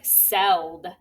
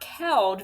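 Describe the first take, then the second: First: The word begins with a soft S sound. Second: The word begins with a hard K sound. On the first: The speaker calls it right. "it's right, seld" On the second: The speaker calls it wrong. "It's not keld"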